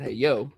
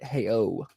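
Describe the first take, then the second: First: A 'y' sound links 'hey' into 'O'. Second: 'O' starts cleanly with no 'y' sound. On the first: The speaker calls it wrong. "she may have said hey yo" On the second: The speaker calls it right. "but it's hey, hey O"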